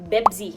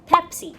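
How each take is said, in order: First: The word starts with a b sound. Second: The word starts with a p sound. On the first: "เขาไม่ออกเสียง P เขาก็จะออกเสียงเป็น" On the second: "อย่างเช่นคำว่า"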